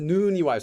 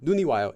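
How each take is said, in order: First: The first vowel is held long. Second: The first vowel is kept short. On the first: The speaker calls it right. "so that would be the long longer one" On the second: The speaker calls it wrong. "It wouldn't be a short sound"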